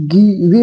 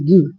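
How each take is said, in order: First: गिवे said slowly as gi-ve, sounding the final ई; wrong pronunciation. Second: गिव said as one syllable, giv, with the final ई silent; correct pronunciation. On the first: Teacher slowly showing students the wrong reading with the ई pronounced. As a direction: stretch out गिवे slowly as two syllables, gi-ve. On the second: Teacher showing students the right way to read the word, plainly. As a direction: say गिव as giv, no vowel after the v. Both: Shown as a demonstration. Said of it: "नहीं, ई silent रहता है".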